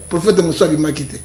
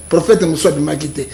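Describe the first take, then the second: No difference in how they are said.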